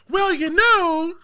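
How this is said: It is said in a put-on woman's voice.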